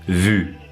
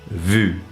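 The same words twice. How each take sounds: First: The vowel is a front rounded 'u' sound. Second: The vowel is a front rounded 'u' sound.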